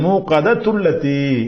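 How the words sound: The words run together in one breath.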